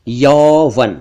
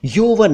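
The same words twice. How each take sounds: First: यौवन with open "au"; long "aw" in यौवन; correct यौवन. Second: यौवन with rounded "o"; "oh" vowel in यौवन; mispronounced यौवन. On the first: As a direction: say यौवन as "yauvan". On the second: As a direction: say यौवन wrongly as "yovan". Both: Shown as a demonstration. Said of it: "यौवन नहीं".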